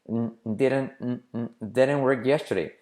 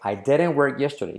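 First: The opening I is almost dropped. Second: The opening I is clearly pronounced.

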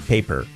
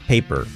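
Both takes have the same delivery.

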